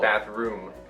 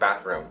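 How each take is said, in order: First: The second syllable has a long vowel, like 'broom'. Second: The second syllable has a short vowel, like 'rum'. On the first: "Not, not, not" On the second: "I say rum. It sounds like the word rum, like the drink"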